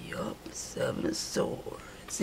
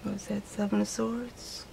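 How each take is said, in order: First: Slow breathy whisper, almost no voice; naming the card again in a whisper. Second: Said in the usual way. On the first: Real, not acted.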